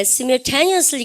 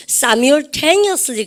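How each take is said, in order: First: "simultaneously" starting with a short "sim"; British pronunciation. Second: "Simultaneously" starting with a long "sigh-m"; alternative American pronunciation. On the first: Teacher on British usage, "simultaneously" with short-i opening. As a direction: say "simultaneously" with first syllable as in "him". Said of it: "영국 애들 같은 경우에". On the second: Teacher giving the other accepted way, "Simultaneously" with SAI opening. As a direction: open "Simultaneously" on an eye vowel, SAI-mul. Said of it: "또 뭐라 그래요?". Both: Shown as a demonstration.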